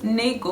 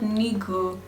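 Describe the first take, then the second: First: The first vowel sounds like 'eh'. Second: The first vowel sounds like 'ee'. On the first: This is how the word should be said. The speaker calls it right. "This thing is Nego" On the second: This is how someone else said the word. The speaker calls it wrong. "not Nigo"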